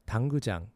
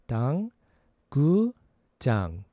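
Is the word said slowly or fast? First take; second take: fast; slowly. First: The word is said faster. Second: The word is said slowly.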